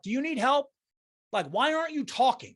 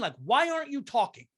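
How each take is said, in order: First: Higher, exasperated question; incredulous challenge. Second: Said in the usual way. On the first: Pretend. To the silent lady in the car, exasperated and pitched up. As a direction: demand an answer from a silent stranger. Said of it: "knocked and said, like". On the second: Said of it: "Do you know what I mean".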